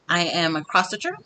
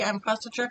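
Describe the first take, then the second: First: It is said slowly. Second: It is said fast.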